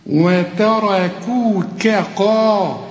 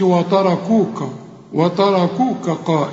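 First: Very slow وتركوك قا, thin ت and ك, thick ر and ق; distinct light and heavy. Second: وتركوك with every letter thickened like the ر; wrong spreading heaviness. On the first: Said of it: "هنا كاف". (وتركوك قا بكاف مرققة وقاف مفخمة) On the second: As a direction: let heavy ر colour ت and ك in وتركوك. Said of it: "فتغط على كل الحروف". (وتركوك بتفخيم كل الحروف غلط) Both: Shown as a demonstration.

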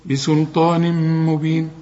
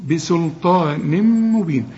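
First: بسلطان مبين with a held nasal merge; ghunna again. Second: Slow مبين with a held nasal hum into the ميم; nasal ghunna. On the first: Teacher repeating the ghunna for the student. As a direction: hum through the merge into مبين. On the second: Teacher showing ghunna on بسلطان مبين. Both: Shown as a demonstration. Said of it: "هنا غن بقى".

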